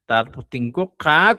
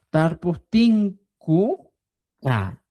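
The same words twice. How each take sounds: First: Said in the usual way. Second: "Tar pu tin ku ka" slow with syllables apart; slow classroom syllable build. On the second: Shown as a demonstration. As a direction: build the word slowly piece by piece. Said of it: "vamos a agregar".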